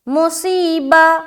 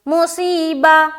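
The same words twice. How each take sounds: Both takes have the same delivery.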